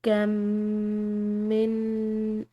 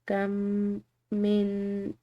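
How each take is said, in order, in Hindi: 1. दोनों m ध्वनियाँ मिलकर एक हो जाती हैं। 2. दोनों m ध्वनियाँ अलग-अलग उच्चारित होती हैं। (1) "लेकिन अगर हम इसको इकट्ठा पढ़ेंगे ... इस तरह एक मीम फील होता है" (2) "अगर हम इसको अलग अलग पढ़ रहे हैं ... यानी कि दोनों मीम पढ़े गए।"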